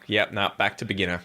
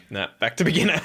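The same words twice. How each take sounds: First: Said in the usual way. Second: "Nah, back to beginner" said again higher with a laugh in it; amused self-mocking echo, laughing; laughing repeat. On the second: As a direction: repeat it cracking up at yourself. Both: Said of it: "and you're like".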